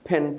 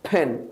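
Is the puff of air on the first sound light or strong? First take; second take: light; strong. First: The first sound has a light, ordinary puff of air. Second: The first sound has a strong, exaggerated puff of air. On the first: "simply ফ্যান" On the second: "এত বেশি জোরে দিতে হবে না, আমি দেখানোর জন্য বলছি।"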